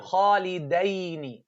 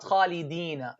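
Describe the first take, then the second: First: The word ends with the sound 'aini'. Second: The word ends with the sound 'ina'. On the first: It refers to two people. The speaker calls it right. "Here, khalidaini" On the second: It refers to more than two people. The speaker calls it wrong. "not khalidina"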